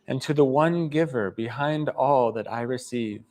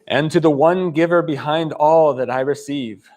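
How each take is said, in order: First: It is said softly. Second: It is said loudly.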